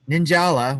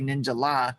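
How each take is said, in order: First: The name runs together as one blended word. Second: The name splits into Ninja plus separate La. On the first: "which is how I like to pronounce it" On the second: "if I say Ninja La"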